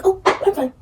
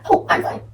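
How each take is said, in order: First: High, bright fake-fine chirp; fake cheerful "I'm fine". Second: "I'm fine" through a breathy laugh. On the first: Girls pretending all is well, forced high "I'm fine". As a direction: brush it off with a forced high smile. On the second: Retold or imitated. Girls pretending all is well, laughing it off. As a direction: laugh it out while insisting you're fine. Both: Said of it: "they be like".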